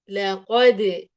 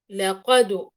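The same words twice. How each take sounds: First: The final d bounce leans toward an i vowel. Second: The final d bounce leans toward a u vowel. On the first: "يعني أميلها إلى كسر" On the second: "أميلها إلى ضم"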